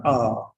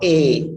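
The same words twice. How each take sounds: First: "a" said as open AH; wrong vowel. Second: "a" said as a strong AY; wrong vowel. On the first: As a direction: say "a" as "ah", as in father. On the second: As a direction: say "a" like the letter A, "ay". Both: Shown as a demonstration. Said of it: "it's in between".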